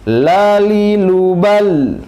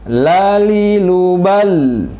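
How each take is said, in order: Both takes have the same delivery.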